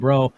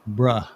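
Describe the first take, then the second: First: The word ends with an 'oh' vowel. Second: The word ends with an 'uh' vowel. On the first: This is the older way to say it. The speaker calls it wrong. "a word that we used to say, and I still say it a lot" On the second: This is the current way to say it. The speaker calls it right. "now it's pronounced bruh, B R U H"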